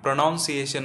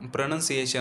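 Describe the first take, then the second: First: The second syllable sounds like 'noun'. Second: The second syllable sounds like 'nun'. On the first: The speaker calls it wrong. "प्रोनाऊन्सिएशन नाही" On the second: The speaker calls it right. "प्रोनाऊन्सिएशन आहे"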